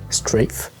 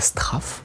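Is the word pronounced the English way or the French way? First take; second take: English; French. First: The word is pronounced with English sounds. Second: The word is pronounced with French sounds. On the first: The speaker calls it right. "ça vient de l'anglais strafe" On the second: The speaker calls it wrong. "il ne faut pas prononcer ça Strafe à la française"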